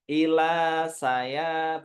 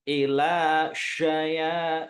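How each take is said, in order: First: The consonant is a thin 's' sound. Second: The consonant is a thick 'sh' sound. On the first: The speaker calls it wrong. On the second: The speaker calls it right. "sya tebel ya"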